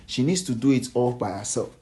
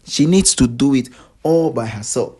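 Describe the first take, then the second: First: Said in the usual way. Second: "She needs to do it" punched out louder; emphatic repeat. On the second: Real, not acted. Gossip vlogger driving home that she must act alone, emphatic. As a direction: hammer "She needs to do it all by herself".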